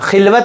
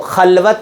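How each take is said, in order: First: The first vowel is an 'i' sound. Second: The first vowel is an 'a' sound. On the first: The speaker calls it wrong. "खिलवत गलत है" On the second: The speaker calls it right. "खलवत है वो"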